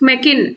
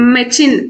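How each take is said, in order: First: The middle consonant is a k sound. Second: The middle consonant is a ch sound. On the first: "దీన్ని మనం మెకిన్ అనలేము" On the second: "మెచిన్ అనలేము కదా"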